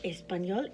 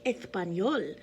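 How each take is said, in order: First: The first consonant is a plain s sound. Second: The first consonant is a th sound. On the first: The speaker calls it wrong. "It's not" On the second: The speaker calls it right. "the S is pronounced as th"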